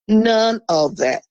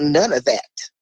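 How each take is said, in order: First: NONE OF THAT slowly, each word set apart; emphatic repeat. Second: Said in the usual way. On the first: Real, not acted. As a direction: drive home "None of that", word by word.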